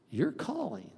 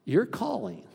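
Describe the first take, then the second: First: Dropping to a softer, intimate your calling; softer repeat. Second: Said in the usual way. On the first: Shown as a demonstration. Pastor pressing the point home, softly. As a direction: say your calling again, hushed and earnest.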